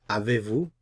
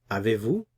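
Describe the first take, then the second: The two takes are said the same way.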